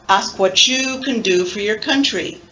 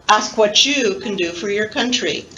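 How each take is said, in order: Both takes have the same delivery.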